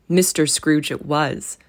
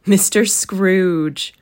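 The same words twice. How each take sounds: First: Said in the usual way. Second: Louder, slow, drawn out "Mister Scrooge"; husband to wife, a slow weighty reveal; slow revealing reply. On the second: A narrator's reading. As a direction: let "Mister Scrooge" land slowly.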